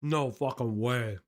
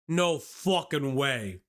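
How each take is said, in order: First: Talking with a carrot in mouth; mouth full. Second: Drawn out, slow; slow disbelief. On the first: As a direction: say it through a mouthful. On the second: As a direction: stretch it in disbelief. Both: Real, not acted. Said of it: "I have a carrot in my mouth".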